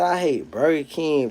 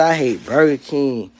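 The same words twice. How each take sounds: First: Slow, softer disbelieving repeat; slow mocking quote, softer. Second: Slow, mocking repeat of the commenter; slow mocking quote. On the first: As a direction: drag out the quote quieter in disbelief. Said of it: "that boy say". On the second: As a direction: draw out the quote slowly, mocking him. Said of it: "boy say".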